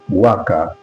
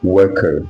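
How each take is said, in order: First: It is said with a British accent. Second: It is said with an American accent. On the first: "worker in British English" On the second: "U S call it worker"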